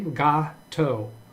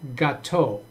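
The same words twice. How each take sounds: First: The stress is on the first syllable. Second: The stress is on the second syllable. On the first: "the emphasis, I think, is on the G A" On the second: "the second, third syllable is more emphasized"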